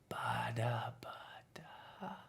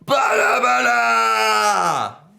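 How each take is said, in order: First: It is said even more softly. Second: It is said very loudly.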